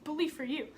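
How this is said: It is said in a sarcastic, dismissive tone. The speaker does not care. "we're so sarcastic in today's society"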